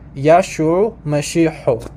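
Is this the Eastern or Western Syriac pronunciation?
Western. It is said in the Western Syriac pronunciation.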